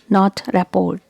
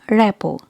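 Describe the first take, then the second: First: The final T sound is pronounced. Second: The final T sound is silent. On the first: The speaker calls it wrong. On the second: The speaker calls it right. "letter R and T are silent"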